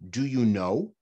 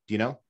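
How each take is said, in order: First: Each word is said fully and separately. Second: The words are run together into one reduced unit. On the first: "If somebody says" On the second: "Most Americans say, ... It sounds like one thing"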